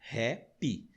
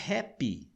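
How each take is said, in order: First: Hap and py set apart; happy in two syllables. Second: Said in the usual way. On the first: Shown as a demonstration. Teacher counting syllables for students, happy split in two. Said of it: "tem duas sílabas". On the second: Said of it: "veja que interessante".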